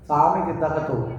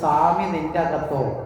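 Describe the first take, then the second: First: The last two words run together into one. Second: The last two words are said as separate words. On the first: The chant has been worn down by repeated calling. The speaker calls it wrong. "അതായത് സ്വാമി നിന്തകത്തോ അല്ല" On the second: It asks whether the Lord is inside you. The speaker calls it right. "അതായത് സ്വാമി നിന്റെ അകത്തോ"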